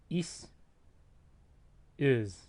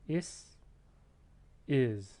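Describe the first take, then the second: No difference in how they are said.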